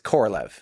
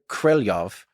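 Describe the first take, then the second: First: The name is said with an American pronunciation. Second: The name is said closer to Russian pronunciation. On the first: The speaker calls it wrong. "than it is Korolev" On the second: The speaker calls it right. "from listening to native speakers, is closer to Korelyov"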